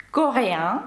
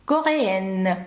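First: "Кореян" in French, ending on a nasal vowel, rising. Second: "кореен" in French, ending EN with a full N; non-nasal ending. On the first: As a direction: let "Кореян" end in the nose, no sounded N. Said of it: "Перший носовий". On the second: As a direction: sound the final N of "кореен", no nasal vowel. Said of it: "через подвійну «н» у нас випадає носовий звук". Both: Shown as a demonstration.

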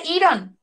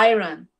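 First: Iron misread as "EE-ron" in an English question; wrong pronunciation. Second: Iron opening on "ai", as "AI-ron"; correct English pronunciation. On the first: Teacher mimicking the mistake for students, iron as "EE-ron". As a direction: say iron with a Spanish "ee" at the start. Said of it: "no vamos a decir iron". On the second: Teacher correcting the students' reading, iron as "AI-ron". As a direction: begin iron like the word "eye". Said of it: "Tenemos que decir iron". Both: Shown as a demonstration.

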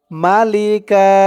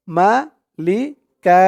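First: Said in the usual way. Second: ملكا ending in a long a, no n; stop on one fatha. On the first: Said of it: "দুই জবর আছে". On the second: Shown as a demonstration. Teacher showing the pause form of the word. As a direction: end ملكا on a drawn long a. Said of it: "আমি এক জবর পড়লাম কেন".

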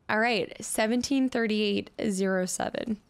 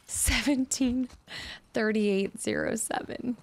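First: Said in the usual way. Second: Seventeen thirty-eight zero seven spelled out slowly, each number separate; slow deliberate readout. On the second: Shown as a demonstration. Gamer slowly reading the safe code aloud. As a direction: read the code back slowly, digit group by group. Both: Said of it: "slowed repeat of the code".

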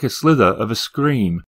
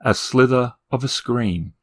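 First: Said in the usual way. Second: Slow and hushed, weighing "a slither of a scream"; slow, uneasy recall. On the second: A narrator's reading. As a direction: say "a slither of a scream" slowly, as if the phrase disturbs you. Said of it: "why he had thought of the phrase".

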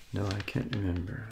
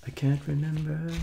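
First: Said in the usual way. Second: The line sung out much higher; a squeaky playful voice for the line; high silly voice. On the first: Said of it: "repeats the line in plain voice". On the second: Pretend. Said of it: "repeats the line high".

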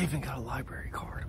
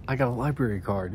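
First: Soft, voiceless library whisper. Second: Said in the usual way. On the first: Real, not acted. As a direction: whisper it so nobody in the library hears. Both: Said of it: "I gotta be quiet".

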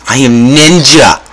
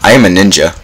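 First: Slow, higher hammed-up boast in broken English; slow playful ninja brag; mock ninja. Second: Said in the usual way. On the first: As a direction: play a proud cartoon ninja.

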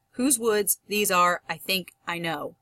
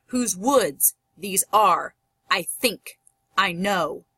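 First: Said in the usual way. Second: Slow "whose WOODS, these ARE, I THINK, I KNOW" with the second word of each pair hit; stress on second syllables. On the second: Shown as a demonstration. Teacher demonstrates iambic, stressing WOODS, ARE, THINK, KNOW. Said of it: "I'm gonna stress the last syllable as I read".

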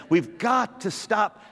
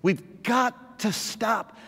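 No difference in how they are said.

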